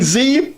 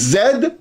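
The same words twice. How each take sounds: First: The letter name is said the American way. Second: The letter name is said a non-American way. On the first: The speaker calls it wrong. "Stop saying Z" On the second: The speaker calls it right. "it is Z"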